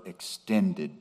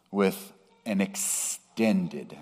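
First: Extended set apart on its own, soft and deliberate; stress on extended. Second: Extended drawn out slowly; stress on extended. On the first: Preacher repeating extended to underline it. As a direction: isolate the word extended and let it hang. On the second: Preacher slowing to stress extended for the congregation. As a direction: lean slowly on the word extended. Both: Shown as a demonstration. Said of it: "and I emphasize that word".

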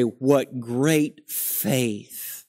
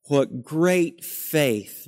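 First: Mock awe. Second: Slow, hushed repeat of the admiring sigh; mock awe, repeated. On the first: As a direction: sigh it out like a wistful admirer. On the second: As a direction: echo the wistful admirer, a little plainer. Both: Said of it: "We look back at Abraham and say".

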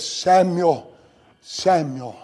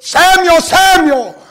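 First: A hushed, much softer "Samuel, Samuel"; soft call. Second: A fuller, pressing "Samuel, Samuel"; urgent call. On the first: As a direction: call "Samuel, Samuel" gently, barely above a murmur. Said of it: "Not just Samuel". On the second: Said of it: "Not just Samuel, but". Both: Shown as a demonstration.

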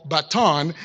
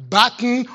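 First: "baton" stressed on the second syllable, ba-TON; alternative pronunciation. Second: "baton" stressed on the first syllable, BAT-n; alternative pronunciation. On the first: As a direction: say "baton" as buh-TON, final vowel full. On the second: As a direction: say "baton" as BAT-un, ending reduced. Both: Shown as a demonstration. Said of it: "So hence my clarification".

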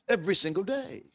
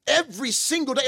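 First: Softer, falling Every single day; quiet emphasis. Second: Every punched high in Every single day; raised emphasis. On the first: Preacher stressing daily manna to the congregation, soft falling. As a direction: let Every single day sink in softly. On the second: Preacher repeating the point to the congregation, higher and stressed. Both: Shown as a demonstration.

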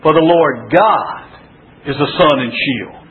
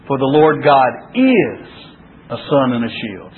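First: GOD held long, then a pause; stress on GOD. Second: IS held long, then a pause; stress on IS. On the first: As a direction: lean on "God" and pause before going on. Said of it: "emphasizing a different word each time". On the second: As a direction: lean on "is" and pause before going on. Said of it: "go through and emphasize each word". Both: Shown as a demonstration.

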